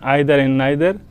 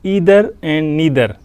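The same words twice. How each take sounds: First: It is said with a British English accent. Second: It is said with an American English accent. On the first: "This is British pronunciation, British English pronunciation" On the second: "In American pronunciation"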